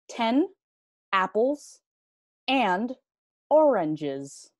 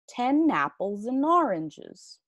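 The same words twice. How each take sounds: First: Each word is said separately, robot-like. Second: The words run together smoothly and naturally. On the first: "Primero como robot sin vincular los sonidos" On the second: "y después normal"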